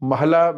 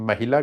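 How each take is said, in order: First: No doubled l and no i vowel. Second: An i vowel comes after the h. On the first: "ਹਾਹੇ ਨੂੰ ਨਾ ਤਾਂ ਅੱਧਕ ਲੱਗਾ ਨਾ ਸਿਹਾਰੀ ਲੱਗੀ" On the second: "ਜੇ ਸਿਹਾਰੀ ਲੱਗੀ ਹੁੰਦੀ ਮਹਿਲਾ ਹੁੰਦਾ"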